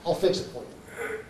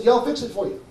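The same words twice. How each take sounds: First: Soft, nearly whispered reassurance; quiet offer. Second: Said in the usual way. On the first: Retold or imitated. Seller offering to fix a stranger's botched job, quiet offer.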